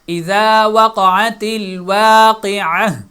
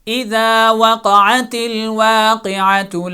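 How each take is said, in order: First: The last word ends in 'ah' before a stop. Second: The last word ends in 'atu' without stopping. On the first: The reciter stops after this word. "जब यहाँ पे स्टॉप करेंगे तो वाक़िअह के एंड पे जो ता है, गोल ता है, वो हा में बदल जाएगी।" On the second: The reading continues into the next verse. "अब यहाँ पर मैंने वाक़िअतु पे स्टॉप नहीं किया और कंटिन्यू किया"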